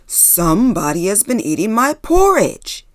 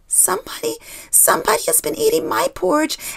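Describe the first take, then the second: First: It is growled in a loud voice. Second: It is said in a quiet voice.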